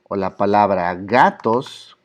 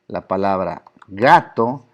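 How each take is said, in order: First: "gatos" slow, with the final S clearly marked; slow, hitting the S of "gatos"; stress the S. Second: "gato" slow, leaning on the final o; slow demo. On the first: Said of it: "Esta S". ("gatos" lento, marcando bien la S final) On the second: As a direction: stretch out "gato" slowly. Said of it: "si yo digo". ("gato" lento, alargando la o final) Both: Shown as a demonstration.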